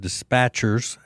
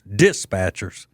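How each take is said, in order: First: It is said in a general American accent. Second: It is said in a rural Deep South accent.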